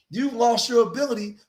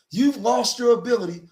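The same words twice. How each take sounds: The two takes are said the same way.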